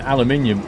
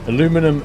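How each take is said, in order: First: It is said in the British form. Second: It is said in the American form. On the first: "in Britain ... We spell it as aluminium, so we say it correctly too" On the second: "Americans say aluminum correctly"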